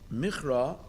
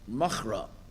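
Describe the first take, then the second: First: The first vowel is an 'ee' sound. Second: The first vowel is an 'ah' sound. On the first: "Michra is spelled with a chirik ... an e sound" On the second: "the word should have been machra ... an a sound"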